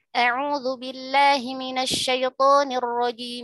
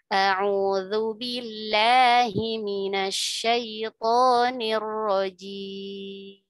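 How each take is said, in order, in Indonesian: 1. Dibaca dengan tempo cepat. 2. Dibaca dengan tempo sedang. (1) "Itu contoh yang hadar, cepat ya" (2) "tidak terlalu cepat, tidak terlalu lambat"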